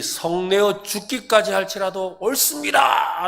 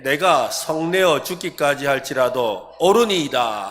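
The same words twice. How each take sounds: First: Raised, drawn-out indignant cry; slow, high-pitched outburst, acting Jonah; defiant loud protest. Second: Said in the usual way. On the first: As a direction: shout it out slowly in defiance. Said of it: "큰소리 치고 있지요". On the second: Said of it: "같이 한번 읽어보겠습니다".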